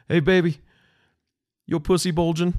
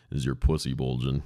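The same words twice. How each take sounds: First: Much higher, louder mock husband voice; hammed-up angry husband; mad husband. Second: Scornful quote. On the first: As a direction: bark the question at his wife. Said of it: "he was so mad". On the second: Retold or imitated. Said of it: "fucking clown asking about".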